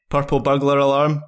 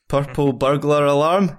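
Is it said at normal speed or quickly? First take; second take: quickly; normal. First: It is said more quickly. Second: It is said at a normal pace.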